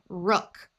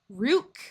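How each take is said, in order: First: The vowel is a short oo, as in book. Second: The vowel is a long oo, as in food. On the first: "so I will try the uh sound" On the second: "we will try the oo sound first"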